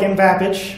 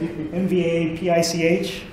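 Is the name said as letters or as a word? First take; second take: word; letters. First: The name is said as one word. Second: The name is spelled out letter by letter. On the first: "which is the way I tend to say it" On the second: "spell it out, right, letter by letter"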